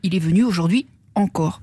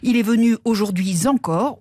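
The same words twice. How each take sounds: First: No z sound links aujourd'hui to encore. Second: A z sound links aujourd'hui to encore. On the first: The speaker calls it right. "au lieu de" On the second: The speaker calls it wrong. "une liaison erronée en Z"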